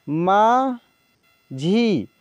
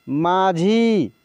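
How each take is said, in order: First: माझी drawn out very slowly, sound by sound; slow dictation of माझी; slow spelled-out reading. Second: Said in the usual way. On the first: Shown as a demonstration. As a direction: stretch माझी for the class. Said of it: "teacher reads word slowly". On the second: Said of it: "teacher says word normally".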